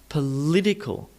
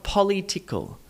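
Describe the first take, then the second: First: The stress is on the second syllable. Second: The stress is on the first syllable. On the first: The speaker calls it right. "Political, not political" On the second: The speaker calls it wrong. "not political ... Because poly is a different word"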